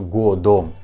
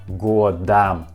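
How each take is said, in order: First: The final vowel sounds like a full O. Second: The final vowel sounds like A. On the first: The speaker calls it wrong. "Not годом" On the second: The speaker calls it right. "this letter O we pronounce like A"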